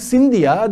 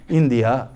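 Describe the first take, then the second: First: The word begins with an s sound. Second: The word begins directly with a vowel. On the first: The original name from the river. "instead of calling Sindhia" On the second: The simpler form that takes less energy.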